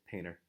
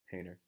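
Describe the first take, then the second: First: The T disappears after the N. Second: The same.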